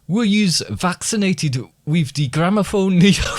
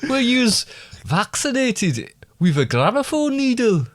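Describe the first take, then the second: First: It is said in the speaker's usual accent. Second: It is said in a put-on German accent.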